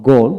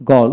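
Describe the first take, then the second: First: গোল as a lone word, rounded "oh"; British গোল for learners to copy; British pronunciation drill. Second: গল as a lone word, open "aw" vowel; American গল for learners to copy; American pronunciation drill. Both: Shown as a demonstration. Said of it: "এইভাবে দুইটা উচ্চারণে পড়াবেন".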